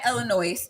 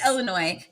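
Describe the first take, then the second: First: The final S is pronounced. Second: The final S is silent. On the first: The speaker calls it wrong. "not Illinois" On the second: The speaker calls it right. "it is Illinois"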